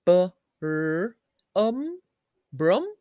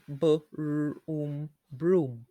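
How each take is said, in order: First: "brum" with short uh, rising as a question; "brum" as a doubtful short-vowel broom; wrong uh sound. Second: "broom" with a long oo; "broom" blended with a full long oo; oo sound. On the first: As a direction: sound out "B-r-um" loudly, then test "brum". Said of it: "Or do we say". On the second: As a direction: slowly sound out b, r, oom, then "broom". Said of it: "Ooh, very good". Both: Shown as a demonstration.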